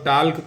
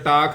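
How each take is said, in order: First: The word is said with an L sound. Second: The word is said without any L sound. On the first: The speaker calls it wrong. "इसको वाल्क और टाल्क कोई नहीं पढ़ेगा भाई" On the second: The speaker calls it right. "इसका pronunciation सही टाक होता है, क्योंकि एल साइलेंट है"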